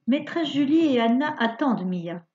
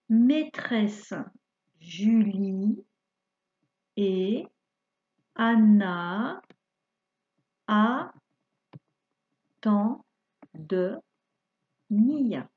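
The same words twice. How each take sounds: First: It is read at a faster pace. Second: It is read at a slower, normal pace.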